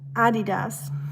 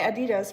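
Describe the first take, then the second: First: Adidas is said with the German pronunciation. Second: Adidas is said with the American pronunciation. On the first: "I can't even say it otherwise" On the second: "You say Adidas, right, in America?"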